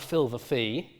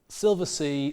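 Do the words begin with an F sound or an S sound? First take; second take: F sound; S sound. First: Both words begin with an F sound. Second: Both words begin with an S sound. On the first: The speaker calls it wrong. "This is not the filver fee" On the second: The speaker calls it right. "this is actually an S"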